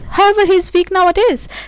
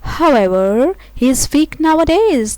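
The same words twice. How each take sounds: First: It is read quickly with no pause after 'however'. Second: There is a pause after 'however'. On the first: The speaker calls it wrong. "when you go for the quick reading without any pause, doesn't leave a good sense" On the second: The speaker calls it right. "it is more clear the the sense now"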